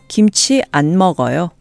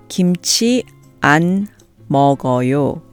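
First: It is said at a natural speed. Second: It is said slowly and carefully. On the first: "and then at a more natural speed" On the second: "I'll say the negative sentence slowly first"

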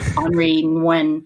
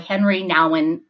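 First: The name is said with French-style pronunciation. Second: The name is said with English pronunciation.

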